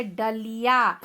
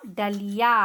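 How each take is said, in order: First: डलिया drawn out slowly, retroflex ड clear; slow demo. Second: Said in the usual way. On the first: Shown as a demonstration. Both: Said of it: "देखो, एक ड का ड़ प्रयोग कैसे हुआ है".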